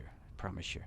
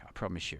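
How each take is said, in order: First: Repeated as a soft whisper. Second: Said in the usual way. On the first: Shown as a demonstration. To the livestream viewers, a whispered repeat of the promise. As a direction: drop to a breathy whisper. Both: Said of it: "Sorry, I'm not gonna sing".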